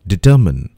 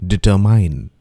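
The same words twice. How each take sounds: First: "Determine" said di-TER-min; "Determine" ending in a short min; careful "Determine", di-ter-min; correct pronunciation. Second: "determine" said di-ter-MINE; "determine" ending in a long mine; mispronounced "determine", di-ter-mine; wrong pronunciation. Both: Shown as a demonstration.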